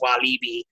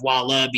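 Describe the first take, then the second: First: The i vowels are long ee sounds. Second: The i vowels are short, like the animal. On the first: The speaker calls it right. "both of the I's are the long E sound" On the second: The speaker calls it wrong. "Instead of Wallaby"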